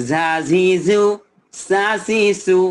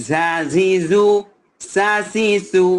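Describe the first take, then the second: No difference in how they are said.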